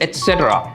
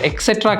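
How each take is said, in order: First: It begins with an 'ets' sound. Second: It begins with an 'eks' sound. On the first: The speaker calls it right. "நான் அந்த எக்ஸ் சவுண்டே use பண்ணியிருக்க மாட்டேன், டீயை தான் stress பண்ணியிருப்பேன்" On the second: The speaker calls it wrong. "அது எக்ஸெட்ரா கிடையாது"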